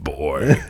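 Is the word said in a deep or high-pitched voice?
deep. The word is said in a low, deep voice. "I'll do the Kratos and I'll be like"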